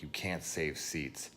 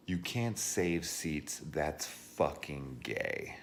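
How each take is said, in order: First: Slow, smug repeat of the rude guy; mocking quote. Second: Slow, drawn-out sneer at the rude guy; mocking quote. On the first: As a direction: drawl it like a smug jerk. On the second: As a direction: drag out a smug know-it-all line.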